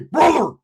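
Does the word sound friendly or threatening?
friendly. It sounds warm and friendly.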